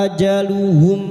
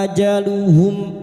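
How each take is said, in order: Both takes have the same delivery.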